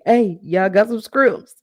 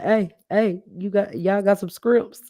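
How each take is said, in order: First: High, loud, slow yell for scrimps; mimicking Buddy yelling. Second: Mimicking Buddy shouting. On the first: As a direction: holler the order across the restaurant, drawn out and louder. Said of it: "you don't want nobody in the restaurant". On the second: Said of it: "Y'all remember he was like".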